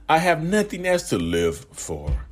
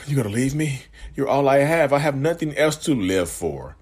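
First: Slow, higher, drawn-out plea; dramatic guilt trip. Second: Higher pleading guilt-trip, mildly acted; guilt-tripping partner. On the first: Shown as a demonstration. Narcissist milking the threat to stay, slow higher plea. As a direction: stretch it out to guilt them. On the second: Partner threatening when you try to leave, mild mock pleading. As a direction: act out the clingy partner begging you to stay. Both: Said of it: "They'll say it just like that".

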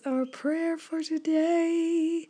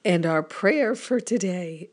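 First: Higher, slow, cracking voice. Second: Said in the usual way. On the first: Real, not acted. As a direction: let the voice crack up high. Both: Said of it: "oh my goodness".

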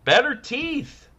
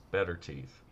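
First: Better teeth jumps much higher and slower; squeaky emphasis. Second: Said in the usual way. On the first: Shown as a demonstration. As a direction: stretch better teeth up high and slow. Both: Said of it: "repeated phrase".

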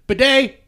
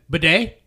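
First: Higher, louder Bidet like a bright hello; phone greeting. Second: Bidet? as a rising hello; phone greeting. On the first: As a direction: greet the caller with a cheerful Bidet. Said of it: "just say". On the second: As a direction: answer the phone saying bidet. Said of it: "I like to start off with that". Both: Shown as a demonstration.

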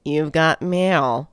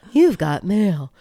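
First: Said in the usual way. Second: Slow, put-on announcement voice; You've Got Mail voice. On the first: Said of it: "I can't do it like they do". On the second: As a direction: imitate the mail alert, drawn out. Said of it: "like they do".

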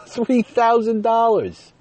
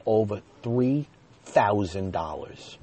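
First: High, loud, slow laughing exclamation; laughing outrage, much higher and louder; laughing disbelief. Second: Said in the usual way. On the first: Real, not acted. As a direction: cry out the sum in shocked amusement. Disbelief at the huge bill.

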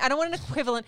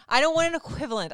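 First: Said in the usual way. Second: "want" hit higher and louder; emphatic repeat. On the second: Shown as a demonstration. Wife rejecting husband's excuse, "want" louder and higher. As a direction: repeat "I don't want an equivalent" harder, punching "want".

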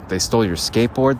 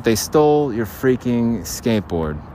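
First: Said in the usual way. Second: "They stole your freaking skateboard" drawn out slowly, "stole" hit hard; slow emphatic. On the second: Shown as a demonstration. Telling Bling his skateboard was stolen, slowly stressed. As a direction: lean on "stole" and slow right down. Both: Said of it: "Listen to me".

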